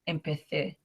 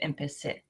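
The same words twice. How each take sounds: First: The c is said with a th sound. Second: The c is said with an s sound.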